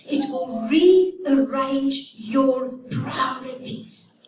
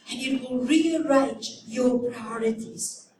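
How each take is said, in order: First: Slow emphatic. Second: Said in the usual way. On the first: Shown as a demonstration. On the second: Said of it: "Compassion will make you stop".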